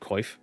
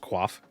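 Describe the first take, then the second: First: The word is said with an 'oy' vowel, like 'coif'. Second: The word is said with a 'kw' start, like 'quaff'. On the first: This is how most people say it. The speaker calls it wrong. "everybody said Coif" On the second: This is how it is actually pronounced. The speaker calls it right. "it's actually pronounced Quaff"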